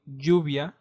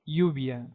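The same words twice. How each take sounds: First: The double L sounds like j in jack. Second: The double L sounds like y in yacht.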